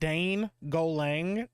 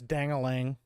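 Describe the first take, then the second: First: It begins with 'dane' followed by a separate 'golang'. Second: It begins with 'dang' and runs together quickly. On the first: This is a playful, deliberately literal reading. "I'd like to pronounce it really specifically that way" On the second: This is how the name is really meant. "I know it's Dang-a-lang"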